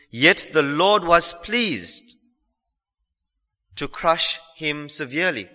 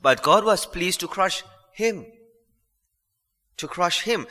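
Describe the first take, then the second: First: "pleased" drawn out slowly, then a pause; stress on pleased. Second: "him" set apart after "crush"; stress shifted to him. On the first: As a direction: stretch the word "pleased" and let it hang. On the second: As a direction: land on "him" as its own beat. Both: Shown as a demonstration. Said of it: "put the emphasis on a different word".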